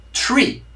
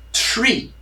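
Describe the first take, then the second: First: Tree said higher, crisp T then ree. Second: Tree starting with a plain T. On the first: Teacher repeating tree higher for students. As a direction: lift the pitch on tree. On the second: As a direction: say tree with a crisp T. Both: Shown as a demonstration. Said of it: "a letra T antes".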